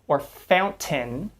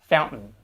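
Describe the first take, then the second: First: The T is a fully released T sound. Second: The T is cut off as a glottal stop. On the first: The speaker calls it wrong. "We don't say" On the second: The speaker calls it right. "but we tend to say"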